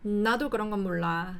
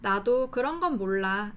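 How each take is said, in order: First: The first word is very strongly stressed. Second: No word is given special stress. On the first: A foreigner is talking. The speaker calls it wrong. "맨 앞 나의 강세를 굉장히 강하게 주면서" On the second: A native speaker is talking. The speaker calls it right. "그냥 말하면 될 걸"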